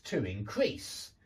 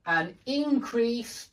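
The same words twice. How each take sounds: First: Increase stressed on the second syllable, low, slow; verb stress. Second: Increase stressed on the first syllable, high, slow; noun stress. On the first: Teacher drilling nouns against verbs, second-syllable stress on increase. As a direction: land on CREASE in increase. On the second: Teacher drilling nouns against verbs, first-syllable stress on increase. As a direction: hit IN in increase. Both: Shown as a demonstration. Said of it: "hear me changing the position of the stress".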